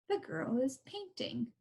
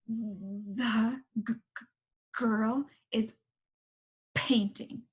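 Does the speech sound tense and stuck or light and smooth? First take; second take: light, smooth; tense, stuck. First: It sounds light, soft and smooth. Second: It sounds tense and stuck, with repeated sounds.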